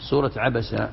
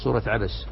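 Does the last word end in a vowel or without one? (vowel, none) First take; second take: vowel; none. First: The last word ends on a short vowel. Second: The last word ends on a bare consonant. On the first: The speaker calls it wrong. "ما تقول عبسة" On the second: The speaker calls it right. "الصحيح أنك تسكن، تقول سورة عبس"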